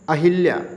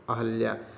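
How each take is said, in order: First: The second syllable has an 'i' vowel. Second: The second syllable has an 'a' vowel. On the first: The speaker calls it wrong. "अहिल्या का शुद्ध होता है अहल्या" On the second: The speaker calls it right. "शुद्ध होता है अहल्या"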